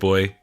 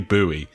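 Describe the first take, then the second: First: It is said like the word boy. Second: It is said the way Americans say it. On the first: "They don't pronounce it boy um, in uh, in other countries" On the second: "But the Americans, I believe, say buoy"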